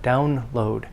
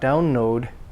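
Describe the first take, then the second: First: The L is pronounced distinctly after the N. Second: The L blends into the N before it. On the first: The speaker calls it right. "The L must be pronounced distinctly and clearly" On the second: The speaker calls it wrong. "it's not download"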